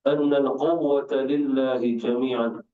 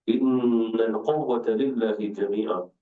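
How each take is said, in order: First: The first word begins with an 'a' vowel. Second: The first word begins with an 'i' vowel. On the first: "Kalimat anna" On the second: "juga dibaca inna"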